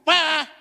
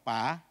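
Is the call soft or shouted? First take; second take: shouted; soft. First: The call is shouted loudly. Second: The call is said softly.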